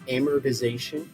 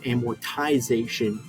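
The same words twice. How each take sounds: First: The t is softened to a d-like sound. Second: The t is said as a clear t.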